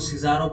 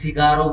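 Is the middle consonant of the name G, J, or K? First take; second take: J; G. First: The middle consonant is a J sound. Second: The middle consonant is a G sound. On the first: "कुछ लोग इसको सिजारो pronounce करते हैं" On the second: "कुछ सिगारो बोलते हैं"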